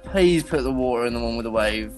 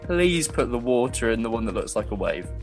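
First: It is said in a put-on character voice. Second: It is said in a natural own voice.

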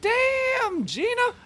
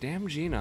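First: The phrase is shouted out with excited energy. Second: The phrase is read out flat and unsure. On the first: It quotes the catchphrase from the TV show. The speaker calls it right. "no, it's like" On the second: Customers just read the name off the menu. The speaker calls it wrong. "they're like"

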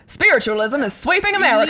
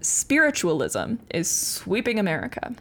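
First: It is said in a put-on transatlantic accent. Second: It is said in the speaker's ordinary accent.

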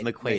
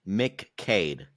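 First: The second syllable starts with a kw sound. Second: The second syllable starts with a plain k sound. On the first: The speaker calls it right. "It's a qua sound" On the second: The speaker calls it wrong. "And they say McCade"

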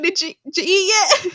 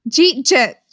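First: The phrase is said as four full words. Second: The phrase is squeezed into two syllables. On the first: "it was trying to say, did you eat yet?" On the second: "I said it wrong. I said, the first time I read it, I said, Jeet Jet"

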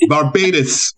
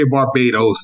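First: The last syllable has an 'ih' vowel. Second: The last syllable has an 'oh' vowel. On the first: "They're like, Barbados. ... the O was I" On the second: "they never say Barbados"

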